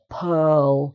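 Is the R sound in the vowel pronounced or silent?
silent. The vowel is open with no R sound. "it's just an open vowel sound without any R"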